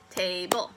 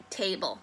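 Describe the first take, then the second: First: "Table" stretched into two beats, ta and ble; broken into syllables. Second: Said in the usual way. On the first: Shown as a demonstration. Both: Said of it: "Break it down".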